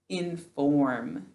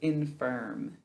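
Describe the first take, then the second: First: The second syllable has a full, clear vowel. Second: The second syllable has a reduced, weak vowel. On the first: This is the careful form used for spelling. "we say inform to spell it" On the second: This is the everyday spoken form. "instead of infirm"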